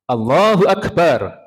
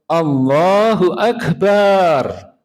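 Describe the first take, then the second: First: The vowel in Akbar is held short. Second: The vowel in Akbar is drawn out long. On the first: Allah is the greatest. The speaker calls it right. "Akbar yang pendek itu artinya maha besar" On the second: It means a drum. The speaker calls it wrong. "Akbar yang panjang itu artinya kendang"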